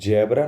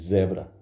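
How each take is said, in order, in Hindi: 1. यह शब्द 'j' की ध्वनि से शुरू होता है। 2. यह शब्द 'z' की ध्वनि से शुरू होता है। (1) "जेबरा नहीं होता है" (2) "देखो जा और ज़ा में अंतर है"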